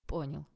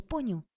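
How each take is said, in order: First: Said in the usual way. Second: High, pressing question; demanding check. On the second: A narrator's reading. Tanya warns Oleg and checks he understood, high demanding. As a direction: pitch it up as a challenge.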